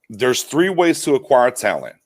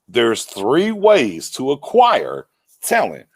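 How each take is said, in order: First: It is said at normal speed. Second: It is said very slowly.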